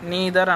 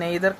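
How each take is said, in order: First: The first vowel sounds like 'ee'. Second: The first vowel sounds like 'eye'. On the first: The speaker calls it right. "నీదర్ అనాలి" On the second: The speaker calls it wrong. "అసలు దీన్ని pronunciation అనేది నెయిదర్ కాదు"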